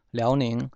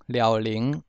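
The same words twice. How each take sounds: First: Said in the usual way. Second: 辽宁 as "liâu-lîng"; Hokkien reading. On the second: Shown as a demonstration. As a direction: say 辽宁 in Hokkien with l on both syllables. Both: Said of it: "省份从第一个".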